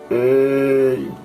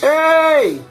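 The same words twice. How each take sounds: First: It is shouted at a low pitch. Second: It is shouted at a high pitch.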